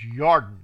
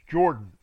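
First: The name begins with a Y sound. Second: The name begins with a J sound. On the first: This is the original Hebrew form of the name. The speaker calls it right. "And it's Yarden" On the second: This is the anglicized form of the name. The speaker calls it wrong. "There's no J in Hebrew"

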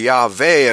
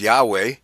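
First: The second consonant sounds like a V. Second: The second consonant sounds like a W. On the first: This is the original-language way of saying it. "It would be pronounced like a V" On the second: This is the English way of saying it. "that would in English Yahweh"

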